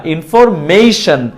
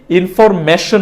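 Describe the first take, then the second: First: Slow ইনফরমেশন with "mei-shan"; correct pronunciation. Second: Slow ইনফরমেশন with plain "me-shon"; no glide on মে in ইনফরমেশন; wrong pronunciation. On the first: Teacher recalling the correction, ইনফরমেশন with ei. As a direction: glide through মে in ইনফরমেশন. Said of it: "ইনফরমেশন না". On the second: Teacher recalling the earlier mistake, ইনফরমেশন with plain e. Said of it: "না". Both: Shown as a demonstration.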